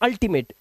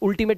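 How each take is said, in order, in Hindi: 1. पहला स्वर 'uh' जैसा सुनाई देता है। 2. पहला स्वर 'oo' जैसा सुनाई देता है। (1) "इसलिए इसे पढ़ते हैं अल्टीमेट" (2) "इसे उल्टीमेट नहीं पढ़ते"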